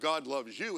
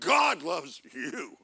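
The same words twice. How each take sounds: First: The stress falls on the word you. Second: The stress falls on the word God. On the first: The listener is lovable enough to be loved. The speaker calls it wrong. "It's not like" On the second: The one who loves is great enough to love anyone. The speaker calls it right. "It's like"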